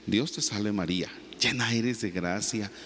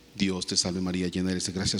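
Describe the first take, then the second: First: It is said slowly and deliberately. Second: It is said in a flat, monotonous way. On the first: The prayer is said as loving words to someone. The speaker calls it right. "de manera lenta" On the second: The prayer is recited mechanically, without feeling. The speaker calls it wrong. "Claro que es monótono"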